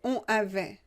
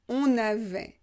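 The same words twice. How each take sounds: First: The n sound is not linked into avait. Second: The n sound links smoothly into avait. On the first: The speaker calls it wrong. "Vous ne pouvez pas prononcer on avait. Non. c'est pas joli" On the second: The speaker calls it right. "On avait est une liaison obligatoire"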